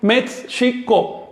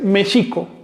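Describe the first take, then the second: First: Both a 'ts' and a 'sh' sound are kept. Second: Only the 'sh' sound is kept, without 'ts'. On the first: The speaker calls it wrong. "Eso es una incorrección" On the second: The speaker calls it right. "predomina la ese hache sobre la te ese"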